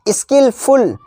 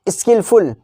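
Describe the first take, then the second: First: "skilful" pulled apart as skill, फुल; higher, separated "skilful", skill then full; split into two words. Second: Said in the usual way. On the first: Shown as a demonstration. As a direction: pause inside "skilful", after skill. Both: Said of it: "दोनों का L".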